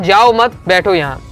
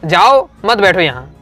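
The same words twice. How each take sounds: First: The pause comes after 'mat'. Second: The pause comes after 'jao'. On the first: Do not leave; stay sitting here. "उसने कहा जाओ मत, मतलब जाओ मत यहीं बैठो" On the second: Leave; do not sit here. "मैंने क्या सुना जाओ जाओ यहाँ मत बैठो"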